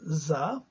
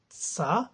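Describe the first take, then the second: First: The syllable starts with a voiced z sound. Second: The syllable starts with a voiceless s sound. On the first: The speaker calls it right. "S sounds as za" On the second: The speaker calls it wrong. "not sa"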